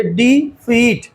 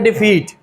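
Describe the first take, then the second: First: डी फीट split into two slow beats, डी, then फीट; teacher sounding out डी फीट syllable by syllable; syllable break. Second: Said in the usual way. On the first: Shown as a demonstration. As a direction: say डी, pause briefly, then फीट. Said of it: "sound कहाँ पे break हो रही है ये focus करेंगे". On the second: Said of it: "sound कहाँ पे break हो रही है".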